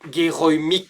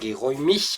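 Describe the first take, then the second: First: It ends with a hard k, southern style. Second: It ends softly, like northern standard German.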